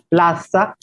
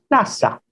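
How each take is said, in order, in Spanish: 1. La consonante del medio es un sonido tipo Z. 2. La consonante del medio es un sonido S simple. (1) "la Z" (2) "se convierte en S"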